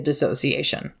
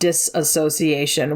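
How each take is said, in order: First: It is said without an extra syllable after 'dis'. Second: It is said with an extra syllable after 'dis'. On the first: The speaker calls it right. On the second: The speaker calls it wrong.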